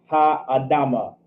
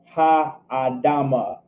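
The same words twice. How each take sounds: First: Said in the usual way. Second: "ha adama" stretched out slowly; slow teaching repeat, vowels of "ha adama" held long; slow pronunciation demo. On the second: Shown as a demonstration. Teacher repeats Hebrew phrase slowly.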